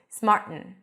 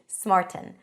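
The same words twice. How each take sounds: First: The T is replaced by a glottal stop. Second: The T is a small, lightly released T. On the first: "some people might pronounce it with a glottal stop" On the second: "you can say it with popping the T, like you would in British English"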